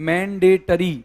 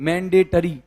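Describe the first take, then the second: No difference in how they are said.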